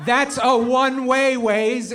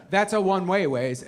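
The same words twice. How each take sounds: First: Slow, high, loud objection; acted exasperated yell; exasperated protest. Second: Said in the usual way. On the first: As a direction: punch each word at the stubborn driver's guide. Passenger protests louder second time.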